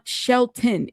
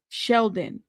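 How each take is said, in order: First: The middle consonant is a t sound. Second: The middle consonant is a d sound. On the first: The speaker calls it wrong. "it's not Shelton" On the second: The speaker calls it right. "it's Sheldon"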